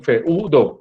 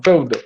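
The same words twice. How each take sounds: First: Feudo split in two syllables, fe-u-do; wrong hiatus split. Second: Feudo as two syllables, feu-do, the e and u glided together; correct diphthong. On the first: Teacher showing students the wrong split, fe-u-do drawn apart. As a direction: pull feudo apart as fe-u-do, the way nobody says it. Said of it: "ustedes no dicen feudo". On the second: Teacher showing students the right way, feudo in one glide, feu-do. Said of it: "ustedes dicen feudo". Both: Shown as a demonstration.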